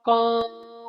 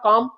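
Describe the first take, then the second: First: The vowel is stretched out extra long. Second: The vowel is held at normal long length. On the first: "और और बड़ा करना" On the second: "आ का डंडा लग गया"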